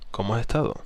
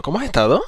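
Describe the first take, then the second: First: ESTADO settling down at the end; falling tone on ESTADO. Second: ESTADO louder, high and swung upward; rising tone on ESTADO. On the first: Coach showing the right way, ESTADO falling. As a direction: let ESTADO drop, assured and contained. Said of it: "Suena mucho mejor". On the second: Coach showing the wrong way, ESTADO rising high. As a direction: lift HAS ESTADO high like an overeager question. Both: Shown as a demonstration.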